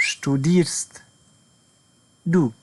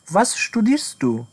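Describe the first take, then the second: First: Said in the usual way. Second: Each word drawn out for learners; a careful, spelled-out question; slow model question. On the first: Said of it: "teacher builds up the phrase". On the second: Shown as a demonstration. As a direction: say it slowly and clearly, like a teacher. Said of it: "full model question, slowed".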